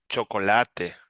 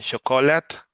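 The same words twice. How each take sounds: First: Chocolate in Spanish, cho-co-LA-te with a clear final e; chocolate said the Spanish way, all four syllables; chocolate in careful Spanish. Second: Chocolate said the English way, a touch higher and louder; chocolate with the English ch and no final e; chocolate as an English word. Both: Shown as a demonstration. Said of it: "right now in Spanish".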